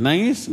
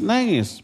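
First: Nangis? asked with a rising question tune; asking tone. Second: Nangis. answered with a falling, settled tune; answering tone. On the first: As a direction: query the word Nangis, pitch going up at the end. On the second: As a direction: state the word Nangis as a firm answer. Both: Shown as a demonstration.

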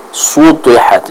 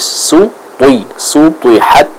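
First: Sutihat with both S and T heavy; over-heavy S in sutihat; S wrongly thickened. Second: Sutihat with light S and heavy T; careful syllables, su thin then "twi" thick; thin sin. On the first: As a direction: show the mistake, "su" of sutihat dragged thick along with the T. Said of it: "akhirnya sinnya ikut ke bawah". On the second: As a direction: correct model, S of sutihat kept light. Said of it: "sin dibaca dengan tipis". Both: Shown as a demonstration.

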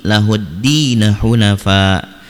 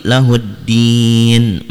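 First: LAHUDDINA HUNAFA linked, with "di" held two beats; slow recitation running lahuddin into hunafa as "lahuddina hunafa"; joined, natural length. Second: LAHUDDIN with a long drawn "diiin", then stop; slow recitation, stretching the last vowel of lahuddin onto a closed n; stopped, prolonged. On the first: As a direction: carry "lahuddin" on into hunafa without stopping. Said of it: "Kalau lanjut diwasolkan, maka dibaca mad tabi'i". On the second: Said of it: "panjang dan hukumnya mad arid li sukun". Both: Shown as a demonstration.

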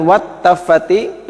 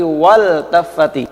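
First: Wat taffati with the l merged into the t; wrong assimilated l. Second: Wal taffati with the l said clearly; clear izhar l. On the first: Teacher shows the mistaken wat taffati reading. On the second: Teacher shows the correct wal taffati with a clear l. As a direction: keep the l of wal taffati audible. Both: Shown as a demonstration.

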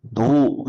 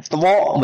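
First: Said in the usual way. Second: "Two" read as written, two-o with the w sounded; spelling pronunciation. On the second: Shown as a demonstration. Teacher quizzing class on English reading, spelling pronunciation. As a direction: sound out every letter of "Two". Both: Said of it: "bacanya apa?".

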